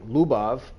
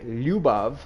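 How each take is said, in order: First: The word begins with a plain l sound. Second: The word begins with a palatal lj sound. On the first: It sounds like the word for crazy. The speaker calls it wrong. "if you say Lubav" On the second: It means love. The speaker calls it right. "with a roll your J"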